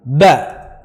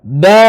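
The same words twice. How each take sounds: First: Said in the usual way. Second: "Ba" with its vowel held long. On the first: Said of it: "Ba aba fili". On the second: Shown as a demonstration. Teacher spelling for students, long "Ba". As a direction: stretch "Ba" into baa. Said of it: "Maddu alif".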